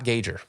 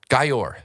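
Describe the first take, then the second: First: The name sounds like 'Gager', with a second g. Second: The name sounds like 'Gay-or', without a second g. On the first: The speaker calls it wrong. "not Gager. Everyone's saying it wrong" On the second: The speaker calls it right. "I learned how to, for everyone, Gayor"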